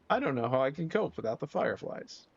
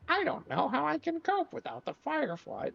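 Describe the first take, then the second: First: It is read in the speaker's normal voice. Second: It is read in a put-on girl's voice.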